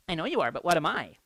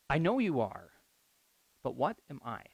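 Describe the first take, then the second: First: It is said in a mocking, taunting tone. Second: It is said in a sincere, questioning tone. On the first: It is a childish comeback to an insult. "a common response from a sassy kid like myself might be" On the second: It is a genuine question about one's identity. "if you change the tone of it"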